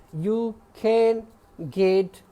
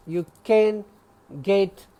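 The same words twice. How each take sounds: The two takes are said the same way.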